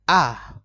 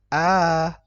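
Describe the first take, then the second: First: The vowel is held briefly. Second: The vowel is held for two beats. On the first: "ketika dia pendek, maka dibaca" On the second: "Kalau dia panjang dua harokat, maka dibaca"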